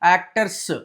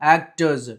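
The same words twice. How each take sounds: First: The word ends with an s sound. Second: The word ends with a z sound. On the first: The speaker calls it wrong. "ఇలా చదవకూడదు" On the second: The speaker calls it right.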